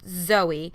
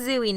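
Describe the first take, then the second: First: The first syllable sounds like 'zoh'. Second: The first syllable sounds like 'zoo'. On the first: The speaker calls it wrong. "not Zoe" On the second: The speaker calls it right. "So I'm saying Zooey"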